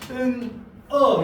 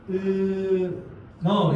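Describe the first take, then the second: First: The two syllables are split with a break. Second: The n sound carries over into the second syllable. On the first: The speaker calls it wrong. "이렇게 읽으니까 이게 좀 바보 같구나" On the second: The speaker calls it right. "이렇게 읽어야 되나?"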